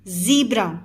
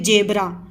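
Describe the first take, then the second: First: The word starts with a z sound. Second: The word starts with a j sound. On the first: The speaker calls it right. "This is not जेब्रा but a ज़ीब्रा" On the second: The speaker calls it wrong. "जैसे इसको लोग पढ़ेंगे जेब्रा"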